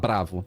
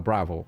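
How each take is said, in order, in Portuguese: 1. Ela é dita com sotaque do português brasileiro. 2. Ela é dita com sotaque do inglês americano. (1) "a gente vai falar bravo" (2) "o americano fala bravo"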